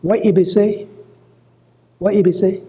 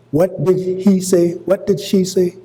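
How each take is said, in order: First: What he be say? raised high in a Gullah lilt; Gullah phrasing. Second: Said in the usual way. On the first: Shown as a demonstration. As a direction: put on the Gullah speech pattern. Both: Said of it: "We just use that".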